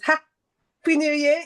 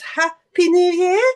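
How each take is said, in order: First: It is said with a pause. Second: It is said without a pause.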